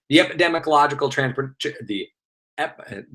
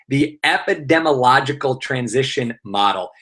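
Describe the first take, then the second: First: Tripping over a long term, breaking off; tongue-tied. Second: Said in the usual way. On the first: Real, not acted. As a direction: stumble on "epidemiological transpor-" and give up, trailing into fragments. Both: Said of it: "say it three times fast".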